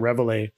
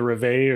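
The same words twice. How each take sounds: First: The word is pronounced the English way. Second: The word is pronounced the French way. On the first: "as he pronounces it" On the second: "that's my French pronunciation"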